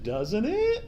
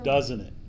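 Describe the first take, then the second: First: The pitch rises at the end. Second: The pitch falls at the end. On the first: The speaker sounds unsure of it. The speaker calls it wrong. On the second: The speaker states how it sounds. The speaker calls it right.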